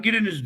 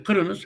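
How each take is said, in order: First: Said in the usual way. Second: "Kırınız" with a hard k and back vowels; Kazakh pronunciation. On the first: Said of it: "anladım ki adam". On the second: Retold or imitated. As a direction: say "Kırınız" high, k for g, ı for i. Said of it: "anladım ki adam, Giriniz, diyor". ("Kırınız": kalın k ve ı sesleriyle Kazak söyleyişi)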